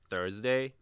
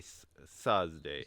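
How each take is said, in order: First: The word begins with a 'th' sound. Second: The word begins with an 's' sound. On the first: The speaker calls it right. "pronounce T H pro- uh, properly, like a Thursday" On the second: The speaker calls it wrong. "We say s- Thursday"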